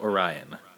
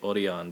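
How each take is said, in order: First: It is said with an English pronunciation. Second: It is said with a Japanese pronunciation. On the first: "It's spelled like Orion" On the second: "you say it Orion because it's Japan"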